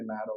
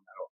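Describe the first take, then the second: First: "Naro" stressed on the first syllable, NA-ro. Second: "Naro" stressed on the last syllable, na-RO; stress on final O. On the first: Host recalling his doubt over the surname, "Naro" stressed on NA. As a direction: put the weight on the A of "Naro". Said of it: "que se dice Naro o Naro". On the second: Host recalling his doubt over the surname, "Naro" stressed on final O. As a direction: put the weight on the O of "Naro". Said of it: "con acento en la O". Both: Shown as a demonstration.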